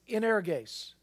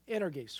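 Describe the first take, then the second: First: The word is said slowly. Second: The word is said fast.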